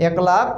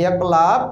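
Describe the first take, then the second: No difference in how they are said.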